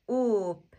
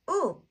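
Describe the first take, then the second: First: "Oop" stretched slowly with a long vowel; drawn-out blend. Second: "oop" said short with high, falling pitch; short, joined-up syllable. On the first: Teacher blends sounds slowly first. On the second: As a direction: snap "oop" into one quick syllable. Teacher repeats the blend quickly. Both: Shown as a demonstration.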